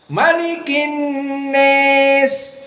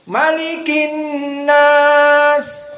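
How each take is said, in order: First: The vowel in nas leans strongly toward e. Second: The vowel in nas is an open a. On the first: This is one particular transmitted reading. "Ini qiraah Abu Amr" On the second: This is the majority reading. "Ini jumhur"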